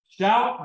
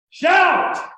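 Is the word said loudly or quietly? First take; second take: quietly; loudly. First: The word is said quietly and without excitement. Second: The word is shouted very loudly. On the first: The reading shows no real excitement. The speaker calls it wrong. "And we read it like that. We read it just like I read it to you" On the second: The reading matches the joyful meaning. The speaker calls it right. "Didn't mean to hurt your ears"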